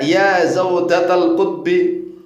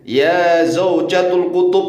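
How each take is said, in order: First: The phrase ends with the sounds zaujatal kutbi. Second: The phrase ends with the sounds zaujatul kutub. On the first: The speaker calls it right. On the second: The speaker calls it wrong.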